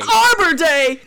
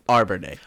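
First: It is said with more energy. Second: It is said with flat, low energy.

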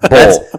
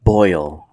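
First: The vowel is a plain 'oh' without a glide. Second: The vowel glides from 'o' to 'ee'. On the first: This is how it is said locally. The speaker calls it right. "we don't say the I here" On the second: This is not how it is said locally. The speaker calls it wrong. "it's not boil"

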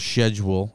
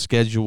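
First: It is pronounced the fancy, posh way. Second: It is pronounced the everyday, ordinary way.

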